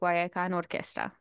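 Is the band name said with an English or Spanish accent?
Spanish. The name is said with a Spanish accent. The speaker calls it right.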